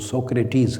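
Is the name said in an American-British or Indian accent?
American-British. The name ends in a long 'teez' sound. "American और British जो accent है वो सोक्रेटीज़ कहते हैं"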